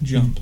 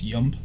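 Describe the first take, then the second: First: The word begins with a hard J sound. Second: The word begins with a Y sound.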